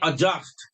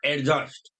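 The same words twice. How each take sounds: First: The d merges into one j sound. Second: A separate d sound comes before j. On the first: The speaker calls it right. "So you will say adjust" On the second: The speaker calls it wrong. "not adjust"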